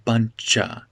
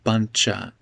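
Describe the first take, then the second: First: Spoken quickly, with 'of' reduced to 'a'. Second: The same.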